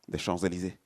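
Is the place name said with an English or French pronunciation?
French. The name is said with a French-style pronunciation. The speaker calls it right. "we say"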